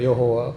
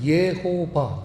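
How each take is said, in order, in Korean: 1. 마지막 음절은 w 소리로 시작합니다. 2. 마지막 음절은 v 소리로 시작합니다. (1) "우리는 여호와 이렇게 이제 많이 그 익숙해졌죠" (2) "예호바가 사실은 가장 정확한 하나님 그 이름의 발음입니다"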